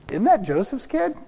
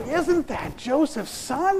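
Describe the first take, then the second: First: It sounds scornful and dismissive. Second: It sounds admiring and impressed.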